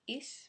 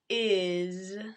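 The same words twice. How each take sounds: First: The word ends with a hissing s sound. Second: The word ends with a buzzing z sound. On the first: The speaker calls it wrong. "it looks like is, maybe?" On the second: The speaker calls it right. "But pronounced is, where the, the S becomes a Z sound"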